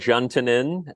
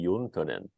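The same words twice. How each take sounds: First: It is said with an Americanized pronunciation. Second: It is said with a Finnish pronunciation. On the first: "you you said Juntunen" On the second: "pronounced in the Finnish would be"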